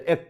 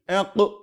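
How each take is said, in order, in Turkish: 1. Son ünsüz düz çıkar, yankısız. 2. Son ünsüz yankılanarak sekip çıkar. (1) "Ek diye geçerdiz" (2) "Enka şeklinde ne yapıyoruz? Okuyoruz"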